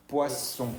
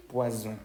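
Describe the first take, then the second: First: "poisson" with an unvoiced double S, pwa-sson; hissed S sound. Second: "Poisson" with the middle voiced, pwa-zon; voiced Z sound. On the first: Teacher shows the word for fish, hissed S. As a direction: keep the middle of "poisson" a pure sss. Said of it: "se va a pronunciar como una S". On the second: Teacher repeats the word for poison, voiced Z. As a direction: buzz the S of "Poisson" like a Z, lower pitched. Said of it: "se pronuncia como una Z". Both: Shown as a demonstration.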